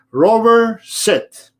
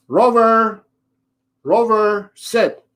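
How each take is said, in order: First: Single firm call of the name, high and loud, then sit; crisp dog command. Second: High, pleading repeated name before sit; imitating the owner. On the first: Shown as a demonstration. Trainer showing the owner the right command, firm and clear. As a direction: give one clean, confident command. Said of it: "you have to say". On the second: Trainer mocking the owner who repeats the name, pleading call. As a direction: mimic a flustered owner calling the dog twice. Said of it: "So the owner goes".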